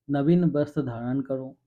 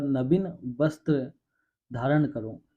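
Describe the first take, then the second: First: Said in the usual way. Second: Slow "नवीन वस्त्र", broken by pauses; comma pauses. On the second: Shown as a demonstration. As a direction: draw out "नवीन वस्त्र", pause before "धारण करो". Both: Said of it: "उसके बाद अल्पविराम लगने के बाद".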